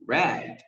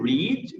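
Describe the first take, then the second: First: It is said with the past-tense pronunciation. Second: It is said with the present-tense pronunciation. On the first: The action happened in the past. "vai ficar read no passado" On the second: The action happens now or habitually. "O verbo to read"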